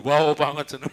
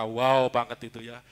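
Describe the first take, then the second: First: "Wow" ditarik panjang dan lebih keras, suara dibuat beda; meniru gaya Heru. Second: Said in the usual way. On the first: Retold or imitated. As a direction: tiru ucapan khas Heru dengan berlebihan. (menirukan seruan khas Heru di depan jemaat) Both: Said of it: "Istilahnya Heru".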